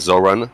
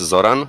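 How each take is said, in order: First: The name is said with an English pronunciation. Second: The name is said with a Croatian pronunciation. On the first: "in English it's uh, everybody calls me like Zoran" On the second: "in Croatian like it's Zoran"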